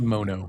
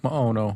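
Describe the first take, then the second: First: The name is said in a plain, shortened way. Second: The name is said in a Hawaiian-sounding way. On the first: "I just say mono" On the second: "cut that uh off a little bit. ... sounds to me like Hawaiian"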